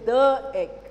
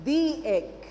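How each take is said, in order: First: 'The' is said with its before-consonant form, 'thuh'. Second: 'The' is said with its before-vowel form, 'thee'. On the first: The speaker calls it wrong. "I don't say the egg" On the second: The speaker calls it right. "E is a vowel sound. So I say the egg"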